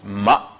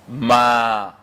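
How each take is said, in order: First: The vowel a is short. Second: The vowel a is drawn out long. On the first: "ce qui était ici ma" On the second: "prononcé de manière plus longue"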